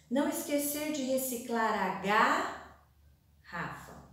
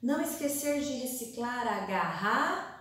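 First: "garrafa" broken as ga, pause, rafa; split across lines. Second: "garrafa" broken as garra, pause, fa; split across lines. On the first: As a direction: lift and hang on ga before finishing "garrafa". ("garrafa" quebrada depois de ga, com pausa) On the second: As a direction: lift and hang on garra before finishing "garrafa". ("garrafa" quebrada depois de garra, com pausa) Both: Shown as a demonstration. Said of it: "os R's se separam".

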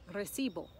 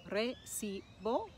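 First: Said in the usual way. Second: "Recibo" slowly broken into separate syllables. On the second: Shown as a demonstration. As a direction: spell out the beats of "Recibo", unhurried. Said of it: "we put it on the penultimate".

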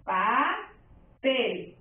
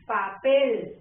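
First: PA... PEL, drawn out with a pause between; "Papel" pulled apart, PA rising, PEL falling; split into syllables. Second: Papel as one word, strong final PEL; "Papel" joined up, accent on the last syllable; stress on PEL. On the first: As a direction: say Papel slowly in two separate beats. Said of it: "Separo en sílabas". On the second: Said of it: "se escucha su sílaba tónica". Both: Shown as a demonstration.

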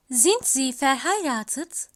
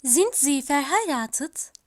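No difference in how they are said.

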